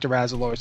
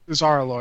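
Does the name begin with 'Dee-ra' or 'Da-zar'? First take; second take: Dee-ra; Da-zar. First: The name begins with the syllables 'dee-ra'. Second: The name begins with the syllables 'da-zar'. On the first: The speaker calls it wrong. "I keep saying Dirazalor, and it's not Dirazalor" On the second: The speaker calls it right. "It's Dazar'alor"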